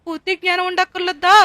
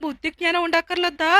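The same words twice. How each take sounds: First: బుద్ధి జ్ఞానం ఉండక్కర్లేదా thrown back louder at him; angry scolding. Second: Said in the usual way. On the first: Acted. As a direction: throw his own words back at him. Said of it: "రెండు తిట్టగానే". (కోపంగా అరుస్తూ)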